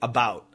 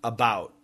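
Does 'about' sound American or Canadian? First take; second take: American; American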